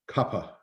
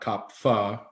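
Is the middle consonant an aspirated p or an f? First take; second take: aspirated p; f. First: The middle consonant is an aspirated p. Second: The middle consonant is an f sound. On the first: The speaker calls it right. "but actually in Sanskrit it's Pa, Kappa, aspirated" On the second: The speaker calls it wrong. "not Kapha, because we see P H A as Fa"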